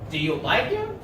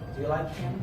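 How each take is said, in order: First: The pitch rises at the end. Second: The pitch falls at the end. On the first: The speaker is asking and expects an answer. The speaker calls it right. "the rising intonation in yes-no questions sounds like this" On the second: The speaker signals finality rather than asking. The speaker calls it wrong. "I didn't say"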